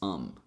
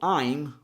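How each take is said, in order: First: The word is said with a reduced schwa vowel. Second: The word is said with its full vowel.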